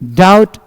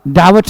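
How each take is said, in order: First: The b is silent. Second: The b is sounded. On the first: The speaker calls it right. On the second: The speaker calls it wrong.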